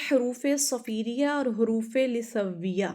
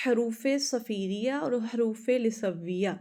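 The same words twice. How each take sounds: The two takes are said the same way.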